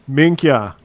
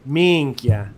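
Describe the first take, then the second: First: Put-on Arnold accent. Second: Minchia said Sicilian-style, MEEN-kya; the Sicilian way: minchia, two syllables; Sicilian swear. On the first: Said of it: "Arnold would probably be like". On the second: Shown as a demonstration. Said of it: "the F word, you can say".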